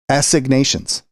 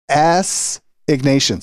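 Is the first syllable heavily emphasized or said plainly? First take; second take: plainly; emphasized. First: The first syllable gets no special emphasis. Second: The first syllable is said with heavy emphasis.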